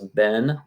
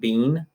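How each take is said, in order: First: It is said the American English way. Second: It is said a non-American way. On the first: The speaker calls it right. "American English pronunciation of this word is been" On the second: The speaker calls it wrong. "not been"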